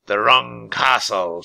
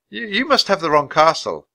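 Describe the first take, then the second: First: Slow, drawn-out mocking echo; raspy king toying with a boy; mocking villain. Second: Put-on high, louder boy's bluff; boy bluffing a villain in a higher voice; nervous boy. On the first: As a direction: savour the words with slow disbelief. Raven King mockingly echoes Jack. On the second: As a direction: stammer the first word, then insist. Frightened Jack bluffing the king. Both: A narrator's reading.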